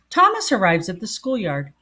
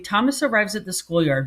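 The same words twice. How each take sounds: First: It is read slower with a pause at the comma. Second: It is read quickly without pausing at the comma. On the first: The speaker calls it right. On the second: The speaker calls it wrong.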